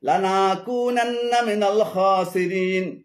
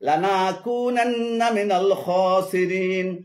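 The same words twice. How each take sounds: Both takes have the same delivery.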